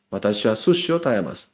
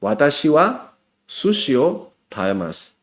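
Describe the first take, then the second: First: "Watashi wa sushi o tabemasu" run together fast and a bit softer; fast, casual everyday version; quick natural take. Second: Careful teacher model read; careful model sentence. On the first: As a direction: rattle it off the way a native would. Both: Shown as a demonstration. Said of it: "hoy aprendiste que".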